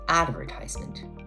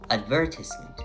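First: The stress falls on the first syllable. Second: The stress falls on the second syllable. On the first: This is the American English pronunciation. "While in American English, the stress shifts to the first syllable" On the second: This is the British English pronunciation. "in British English, the word advertisement is often pronounced with stress on the second syllable"

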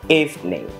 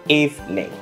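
First: The word is said with two syllables. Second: The same.

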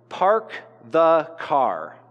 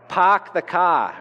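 First: It is said in a plain American accent. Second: It is said in a Boston accent.

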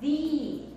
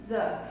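First: The word ends in a long 'ee' vowel. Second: The word ends in a short 'uh' vowel. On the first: This form is used before a vowel. The speaker calls it right. "a gente pronounce the" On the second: This form is not used before a vowel. The speaker calls it wrong. "antes de vogais, ... a gente não diz the"

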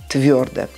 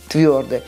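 No difference in how they are said.

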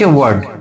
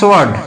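First: The word starts without an s sound. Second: The word starts with an s sound. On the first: The speaker calls it right. "এটা হচ্ছে ওয়ার্ড" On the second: The speaker calls it wrong. "No সোয়ার্ড নয়"

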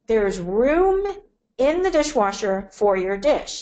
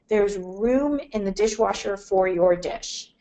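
First: It is said in a changed, pointed tone. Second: It is said in a plain, neutral tone. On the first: An implied request to put the dish in. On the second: A simple remark about space in the dishwasher.

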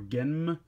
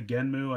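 First: The name ends on the m sound. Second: The name ends with an added oo vowel. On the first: "Some people are calling him Genm" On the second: "it's just easier to say Genmu"

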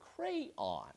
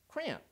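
First: Two syllables, the second rhyming with 'dawn'. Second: It is squeezed into a single syllable. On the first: "two-syllable word pronounced on, so that it rhymes with dawn" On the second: "Or is it a one-syllable word"

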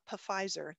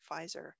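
First: The word begins with a sounded P before the F. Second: The word begins with a plain F sound. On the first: The speaker calls it wrong. "it's not Pfizer" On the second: The speaker calls it right. "it's just Pfizer"

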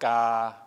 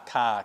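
First: The k is released without a puff of air. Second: The k is released with a puff of air. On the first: "learn to say scar and then just drop the S off" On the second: "Feel the puff of air coming out"

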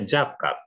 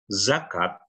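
First: The word begins with a j sound. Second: The word begins with a buzzing z sound. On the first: "dibaca jakat" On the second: "Jelas pakai Z"

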